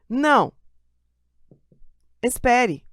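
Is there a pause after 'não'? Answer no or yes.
yes. There is a pause after the first word. The listener is told to wait. "Eu tô mandando você esperar"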